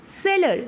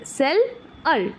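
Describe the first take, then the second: First: Said in the usual way. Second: सेल, pause, अर; broken into syllables. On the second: Shown as a demonstration. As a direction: split the word into सेल and अर with a clear gap between. (शब्द को तोड़कर: cell… अर) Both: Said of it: "बीच में से break कर दे".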